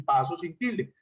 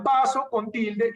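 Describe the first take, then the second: First: "paso" as PA-so; "paso" with the force up front; stress on first syllable. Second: "paso" said as pa-SÓ; "paso" with a forceful, accented ó at the end; stress on final O. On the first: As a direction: stress the a of "paso", final o weak. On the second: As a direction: punch the last syllable of "paso". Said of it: "Hay paso con tilde". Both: Shown as a demonstration.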